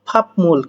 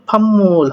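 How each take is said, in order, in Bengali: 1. m-এর আগে p ধ্বনি আসে। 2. m-এর আগে m ধ্বনি আসে। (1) "কি হওয়ার কথা? ফাপমুল" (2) "কিন্তু এখানে ফাম্মুল হবে"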